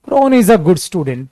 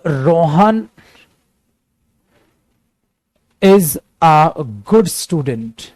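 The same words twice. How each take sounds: First: Said in the usual way. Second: Slow dictation. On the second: Shown as a demonstration. Teacher dictates example sentence slowly.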